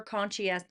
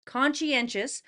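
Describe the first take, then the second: First: Conscientious garbled and cut off; mispronounced. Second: Conscientious said fully and carefully, con-shee-EN-shus; corrected pronunciation. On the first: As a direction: stumble on conscientious. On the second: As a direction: say conscientious properly this time. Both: Real, not acted.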